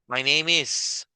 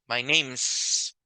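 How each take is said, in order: First: The word is said in full. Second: The word is shortened onto the one before.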